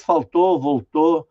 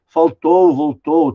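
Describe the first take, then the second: First: Faltou and voltou ending in a plain closed o, no glide; how everyone really says it; everyday reduced ô. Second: Faltou and voltou with a full ow glide at the end; the pronunciation nobody uses; careful diphthong ow. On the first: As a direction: say faltou, voltou as faltô, voltô. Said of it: "todo mundo diz". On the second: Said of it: "ninguém diz". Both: Shown as a demonstration.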